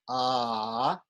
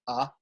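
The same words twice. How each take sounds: First: The vowel is held for a longer time. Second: The vowel is held very briefly. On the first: "If it's longer" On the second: "If it's short"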